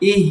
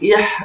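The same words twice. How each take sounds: First: The sound is said lightly without force. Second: The sound is pushed out with force. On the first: The speaker calls it right. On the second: The speaker calls it wrong.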